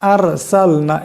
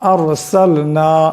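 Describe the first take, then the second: First: The r is said with a thin, light sound. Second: The r is said with a thick, heavy sound. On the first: The speaker calls it wrong. "এমন করে পাতলা আওয়াজে পড়লে হবে না" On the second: The speaker calls it right. "মোটা আওয়াজে পড়তে হবে, আর সাল না এমন করে"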